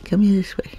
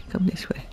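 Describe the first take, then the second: First: Said in the usual way. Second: Whispered lure to an animal; coaxing whisper. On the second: Pretend. Luring a game creature along, coaxing whisper.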